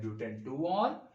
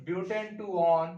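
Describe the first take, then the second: First: Said in the usual way. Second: Slow dictation. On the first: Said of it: "दोनों में से आप कोई भी नाम यूज़ कर सकते हैं". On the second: Shown as a demonstration. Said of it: "तो this is".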